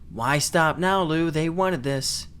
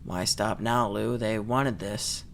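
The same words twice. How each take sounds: First: The voice is expressive, not flat. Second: The voice is flat and monotone. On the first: The speaker calls it wrong. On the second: The speaker calls it right.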